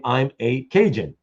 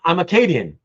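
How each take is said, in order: First: "I'm a Cajun" split into "a" and "Cajun"; "a Cajun" as the Americans heard it; misheard as a Cajun. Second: "I'm Acadian" said as the Acadians said it; "Acadian" run together in one word; Acadian pronunciation. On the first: Explaining the name Cajun, the misheard "I'm a Cajun". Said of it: "thought they were saying". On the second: Explaining the name Cajun, the original "I'm Acadian". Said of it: "they were saying". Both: Shown as a demonstration.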